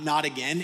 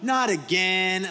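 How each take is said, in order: First: It is said plainly, without a playful tone. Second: It is said in a playful, lighthearted way.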